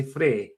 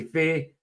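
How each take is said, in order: First: "frae" with r after f; Dundee "frae". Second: "fae" for from, no r; Doric "fae". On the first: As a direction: demonstrate "frae", rhyming with "day". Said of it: "they would say". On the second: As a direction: demonstrate "fae", rhyming with "day". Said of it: "I say". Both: Shown as a demonstration.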